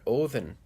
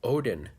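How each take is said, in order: First: The middle consonant is a th sound. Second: The middle consonant is a d sound. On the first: The speaker calls it right. "There's a T H sound in there" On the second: The speaker calls it wrong. "The Norse didn't call their god Odin"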